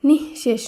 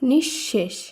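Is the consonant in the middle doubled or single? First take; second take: single; doubled. First: The middle consonant is pronounced once, not doubled. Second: The middle consonant is pronounced doubled, held longer. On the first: The speaker calls it wrong. "নিঃশেষ নয়" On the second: The speaker calls it right. "শব্দটি শুদ্ধ উচ্চারণ হবে"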